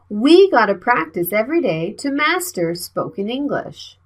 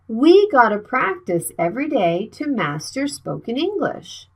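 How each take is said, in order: First: 'Got to' is said as two full words. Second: 'Got to' is blended into one word, 'gotta'. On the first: "the full sentence is" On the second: "How can we speak like a native speaker? Gotta"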